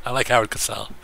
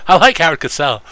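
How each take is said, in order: First: Said in the usual way. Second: High, loud announcer read of like. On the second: Shown as a demonstration. Streamer repeating the line in a louder announcer voice. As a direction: belt it like a sportscaster.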